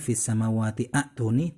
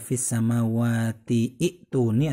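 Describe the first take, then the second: First: An 'a' vowel is sounded before 'tuni'. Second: An 'i' vowel is sounded before 'tuni'. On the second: "Bukan dibaca"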